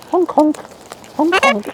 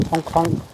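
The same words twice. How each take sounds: First: High piping Hong Kong; squeaky name. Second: Hong Kong said softly, near her usual pitch; soft name. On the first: Naming a bird playfully. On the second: Naming the bird again softly. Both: Real, not acted.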